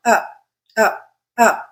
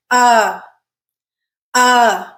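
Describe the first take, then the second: First: Short, unstressed uh with no pitch movement; quick, level uh, cut short; flat schwa. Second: UH held long with a marked falling pitch; full, strong UH with pitch inflection; stressed uh. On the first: Teacher contrasts the schwa with stressed uh, flat and short. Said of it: "It's a flat sound". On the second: Teacher shows learners how the stressed uh sounds, stressed and inflected. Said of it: "very marked pitch inflection". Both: Shown as a demonstration.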